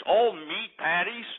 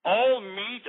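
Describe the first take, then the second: First: All meat patties drawn out slowly with a rising doubt; All stressed, rising; disbelieving question. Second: All meat punched a bit higher with a sharp rise; All meat tossed up in mock disbelief; scoffing repeat. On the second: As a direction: hit All in All meat with scorn. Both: Shown as a demonstration. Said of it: "advertised all meat".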